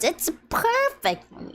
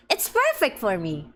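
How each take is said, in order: First: High gleeful sing-song. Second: Said in the usual way. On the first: Shown as a demonstration. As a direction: say it thrilled, way up high. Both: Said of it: "repeats it higher".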